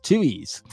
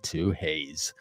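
First: "Two E's" with no H, rhyming with chewies; correct pronunciation. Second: "Two Hayes" said with an H, like the name Hayes; wrong pronunciation. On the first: Host telling viewers the restaurant's name, correctly pronounced. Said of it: "It's pronounced Two E's". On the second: Host showing viewers how not to say the restaurant name, mispronounced. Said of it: "No, it's not Two Hayes". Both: Shown as a demonstration.

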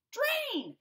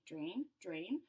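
First: "drain" burst out high and loud; sudden shout. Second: "Drain, drain" low and soft; low murmur. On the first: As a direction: explode on "drain". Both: Acted. Fish chants drain.

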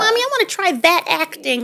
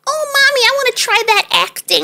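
First: Put-on lightly higher little-boy voice; a milder echo of the kid's request; childish voice. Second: Put-on high, childish voice of a four-year-old; little boy voice. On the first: Mother voicing small son again. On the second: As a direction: voice him as a tiny kid asking sweetly. Mother voicing small son.

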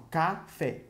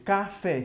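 First: "café" slowly broken as ca, fé; split into syllables. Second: Said in the usual way. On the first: Shown as a demonstration. Teacher showing pupils the syllables, "café" split slowly. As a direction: say "café" with a gap between ca and fé. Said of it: "Se eu separar, vai ficar assim". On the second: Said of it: "Se eu separar".

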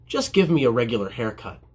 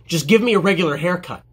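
First: Said in the usual way. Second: Irritated customer, firm and a bit louder; imitated impatient yell, mildly raised; mock yelling. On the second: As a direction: snap it like a fed-up customer. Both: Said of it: "why did dude yell at me?".

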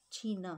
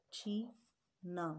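First: Said in the usual way. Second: छी and ना said apart, with a pause, the long ई held; split into syllables. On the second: Shown as a demonstration. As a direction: break छी ना into two syllables for the class. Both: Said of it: "तो यहाँ ई की आवाज़ है".

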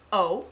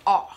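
First: O said as the letter's own name, "oh"; a rounded, sustained long O; long O sound. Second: R said as an open "ah/aw", the short O; open-mouthed short vowel in place of R; short O sound. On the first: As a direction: draw out a clear long "oh" for O. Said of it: "There's a long sound". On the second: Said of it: "we have the short sound". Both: Shown as a demonstration.

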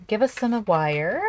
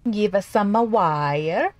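First: Said in the usual way. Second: Slow, hammed-up fake Italian accent; cartoon Italian accent, badly faked; horrible Italian accent. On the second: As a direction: ham up a bad Italian accent, stretching wire. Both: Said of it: "That was a horrible Italian accent".

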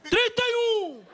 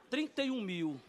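First: Very high, stretched auction yell; acted long, loud bid; drawn-out bid shout. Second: Softer, sobered restating of the bid; acted hushed realisation; subdued repeat. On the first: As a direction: holler the number slowly to the room. Shouted bid, then stunned repeat. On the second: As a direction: say the sum quietly to yourself. Stunned repeat after the shout.

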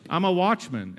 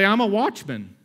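First: Said in the usual way. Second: Louder, higher lead line for the church to echo; preacher's call to the congregation; call-out for the crowd to repeat. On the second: Shown as a demonstration. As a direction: pitch it up and out so the crowd can repeat it.

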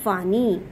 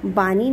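First: वानी with a v sound; correct vaani. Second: बानी with a b sound; wrong baani. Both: Shown as a demonstration. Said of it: "बानी नहीं".

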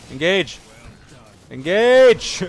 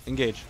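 First: Each Engage louder and higher, ending in a yell; building to a shout. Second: Said in the usual way. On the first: Real, not acted. Pleading with teammates to engage, rising to a shout. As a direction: escalate until you're yelling it.

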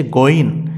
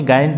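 First: "গইন" said with a rounded "oi" vowel; correct pronunciation. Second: "গাইন" said with an "ai" vowel; the mistaken "গাইন", with an a sound after g; wrong pronunciation. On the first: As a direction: say "গইন" with an o sound, not a. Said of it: "এটি হচ্ছে গইন". (শুদ্ধ উচ্চারণে "গইন", অ-ধ্বনি দিয়ে) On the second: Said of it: "গাইন বলে ভুল করিয়েন না". (ভুল উচ্চারণে "গাইন", আ-ধ্বনি দিয়ে) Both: Shown as a demonstration.

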